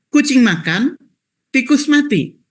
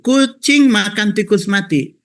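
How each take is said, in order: First: It is said with a pause after "makan". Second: It is said without a pause after "makan". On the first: The cat eats, and the rat dies. "contoh yang kedua" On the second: A cat is eating a rat that is already dead. "ketika membaca satu kucing makan tikus mati"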